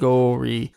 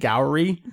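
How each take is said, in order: First: The first vowel is drawn out long. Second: The first vowel is short and gliding. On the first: The speaker calls it right. "Your elongated vowels are like too long" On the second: The speaker calls it wrong. "It drives me up the fucking wall when people say Daisuke Gowri"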